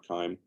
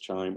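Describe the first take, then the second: First: The word begins with a hard 'k' sound. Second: The word begins with a soft 'ch' sound. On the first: "that hard C sound" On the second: "Probably we'll call it Chime"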